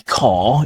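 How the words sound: It is said with a silent final R. "we do say car"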